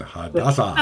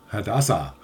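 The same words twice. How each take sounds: First: Hadassah in a mock Japanese accent, laughing. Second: Said in the usual way. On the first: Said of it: "I have to say it in, in a Japanese accent".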